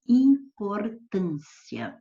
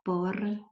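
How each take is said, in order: First: "importância" said slowly and loudly, ending in one gliding "cia"; slow, emphatic "importância" with "-cia" as a single syllable; final diphthong. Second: "importância" broken syllable by syllable, "im, por, tân, si, a"; final hiatus. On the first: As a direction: stretch "importância", keeping the final "ia" together as a rising diphthong. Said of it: "pronunciar essa palavra como ditongo crescente". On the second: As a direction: separate "importância" with long pauses, splitting the final "i" from "a". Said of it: "poderia ser assim". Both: Shown as a demonstration.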